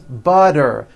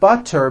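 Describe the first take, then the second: First: The middle consonant sounds like a soft D. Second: The middle consonant is a clear T sound. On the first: "all the T's are pronounced as D's" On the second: "And butter becomes"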